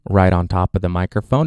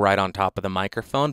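First: The voice is close with full, boomy bass. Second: The voice is close with most bass removed. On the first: "with the high pass filter set to off" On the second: "the most extreme version of the high pass filter"

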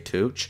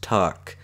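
First: The name ends with a ch sound. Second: The name ends with a k sound. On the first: The speaker calls it wrong. "I always say Tuch" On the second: The speaker calls it right. "it's actually pronounced Tuck"

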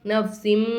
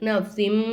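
Both takes have the same delivery.

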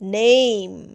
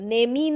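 First: The word ends cleanly on the 'm' sound. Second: The word ends with an extra 'ee' vowel. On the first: The speaker calls it right. "নেম। এর উচ্চারণ লম্বা হচ্ছে।" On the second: The speaker calls it wrong. "দেখো নেমই নয়"

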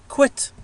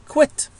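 The two takes are said the same way.

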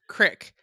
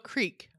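First: It is said Southern-style with a short i. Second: It is said with a long ee vowel.

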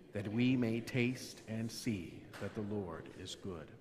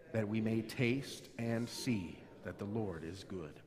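No difference in how they are said.

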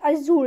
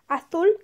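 First: It is said with a Mexican Spanish accent. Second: It is said with a Spain Spanish accent. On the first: The speaker is from Mexico. "if you're from Mexico" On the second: The speaker is from Spain. "if you're from Spain"

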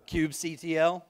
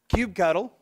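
First: The ending is said as separate letters. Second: The ending is said as one word.

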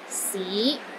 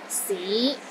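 First: The pitch starts low and rises to middle. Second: The pitch starts low and rises to middle.

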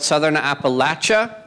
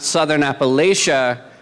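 First: The third syllable sounds like 'latch'. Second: The third syllable sounds like 'lay'. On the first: It is the local way of saying it. The speaker calls it right. "which is the right way to say it" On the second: It is the outsider's way of saying it. The speaker calls it wrong. "which is the racist way to say it"

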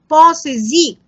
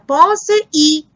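First: A z sound links the verb to the vowel. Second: The two vowels meet with no z between them. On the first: The speaker calls it right. "on va ajouter un S pour éviter cette rencontre" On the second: The speaker calls it wrong. "C'est faux, madame"

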